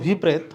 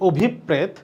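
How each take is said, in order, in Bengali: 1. p ধ্বনিটি একবার উচ্চারিত হয়, দ্বিত্ব নয়। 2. p ধ্বনিটি দ্বিত্ব, আর একটু বেশি সময় ধরে বলা হয়। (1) "আমরা বলি অভিপ্রেত, আসলে এটা অভিপ্রেত না" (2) "এটার উচ্চারণ হবে অভিপ্রেত। তাহলে অভিপ্রেত মানে হচ্ছে প দুইটা হবে"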